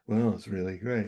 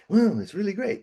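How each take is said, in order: First: It is said in a flat, monotonous voice. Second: It is said in a lively, animated voice.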